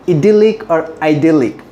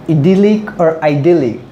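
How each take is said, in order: No difference in how they are said.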